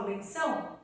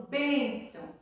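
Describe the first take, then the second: First: "benção" stressed on final ÇÃO, as a question; wrong stress. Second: "bênção" stressed on the first syllable, BÊN; correct stress. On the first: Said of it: "Só que eu não falo benção". ("benção" com o ÇÃO forte, perguntando) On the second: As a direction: hit BÊN and let ÇÃO drop in "bênção". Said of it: "a tônica é o B". ("bênção" com o BÊN forte) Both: Shown as a demonstration.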